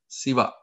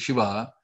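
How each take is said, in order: First: The word begins with a plain 's' sound. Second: The word begins with a 'sh' sound. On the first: A tailor who stitches with a needle is named. The speaker calls it wrong. "the chorus would have sung it as Siva" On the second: The god Shiva is named. The speaker calls it right. "proper pronunciation of the Shiva"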